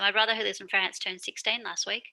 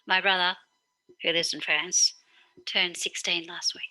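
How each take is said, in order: First: There are no pauses; it runs straight through. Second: There are pauses around 'who lives in France'.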